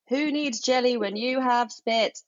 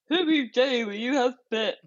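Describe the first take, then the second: First: The words are spoken clearly and normally. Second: The words are muffled, as if through a full mouth.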